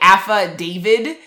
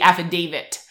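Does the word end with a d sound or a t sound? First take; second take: d sound; t sound. First: The word ends with a d sound. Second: The word ends with a t sound. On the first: The speaker calls it wrong. "is what people are saying instead of David" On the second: The speaker calls it right. "with the T at the end. It's supposed to be affidavit"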